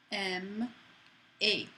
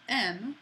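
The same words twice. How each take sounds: First: "M A" in two beats, ending in a clear "ay"; final "A" pronounced as its own syllable; accented final E. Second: "M" as one syllable, final E silent; single-beat "M" with nothing following; unaccented final E. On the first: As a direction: sound out "M", then a separate "A". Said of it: "It sounds like A". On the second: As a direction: say just "M", no "ay" after it. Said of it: "instead of just M". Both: Shown as a demonstration.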